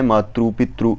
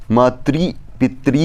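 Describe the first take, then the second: First: मातृ, पितृ said as matru, pitru with u endings; wrong pronunciation. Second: मातृ, पितृ said as matri, pitri with the ri sound; correct pronunciation. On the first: Teacher demonstrating the faulty way, matru pitru. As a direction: mispronounce मातृ, पितृ with a final u. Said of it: "इस तरह से उच्चारण नहीं करना है". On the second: Teacher modelling the right matri pitri for students. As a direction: say मातृ, पितृ cleanly ending in ri. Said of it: "इस तरह से इनका उच्चारण करना है". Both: Shown as a demonstration.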